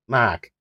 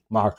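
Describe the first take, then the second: First: Mac, r dropped in Boston accent. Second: Said in the usual way. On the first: Shown as a demonstration. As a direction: say mark the Boston way. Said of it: "my Boston accent". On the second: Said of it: "People love to hear me say".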